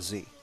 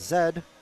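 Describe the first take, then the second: First: The letter is said the American way. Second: The letter is said the British way. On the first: "for uh, American English listeners, it's a Z" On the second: "I'm only saying Z because, you know, for our British listeners"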